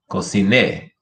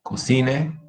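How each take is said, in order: First: Cociné stressed on the final NÉ; stress on last syllable. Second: Cocine stressed on CI, pitch rising; stress on middle syllable. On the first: Teacher giving another example, final stress on cociné. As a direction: land on the end of cociné. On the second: Teacher giving another example, middle stress on Cocine. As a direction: lift through the CI of Cocine. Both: Shown as a demonstration. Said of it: "here's another one".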